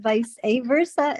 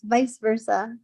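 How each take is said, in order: First: An extra 'uh' syllable sits between the words. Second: The two words join with no extra syllable. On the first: The speaker calls it wrong. "I've been saying it wrong all the time" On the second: The speaker calls it right. "The A isn't there"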